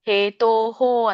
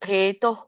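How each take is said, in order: First: The word ends with an added full 'ho' syllable. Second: The word ends with a short breathy h sound. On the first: The speaker calls it wrong. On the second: The speaker calls it right.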